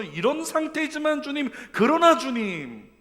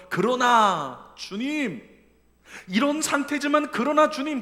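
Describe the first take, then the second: First: High, loud and slow, leaning on 상태지만; lifting eyes to God. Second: Loud, slow, high cry of faith; fervent cry. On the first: Psalmist looking up to the Lord, slow loud plea. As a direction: plead upward, drawing out 상태지만. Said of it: "눈을 들어가지고 주님 바라보면서". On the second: Psalmist lifting his eyes to God, loud fervent cry. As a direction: call out to the Lord with all your heart. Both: Acted.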